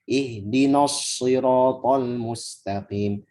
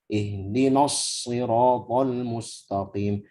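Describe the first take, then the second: The two takes are said the same way.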